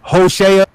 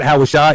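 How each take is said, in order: First: The name ends without an 'eye' sound. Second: The name ends with an 'eye' sound. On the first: The speaker calls it right. "It's Hosea" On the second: The speaker calls it wrong. "The I sound is not at the end of how of Hosea, so it's not Hawashai"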